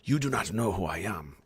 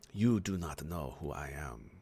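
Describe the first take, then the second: First: It is said at a faster pace. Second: It is said at a slower pace.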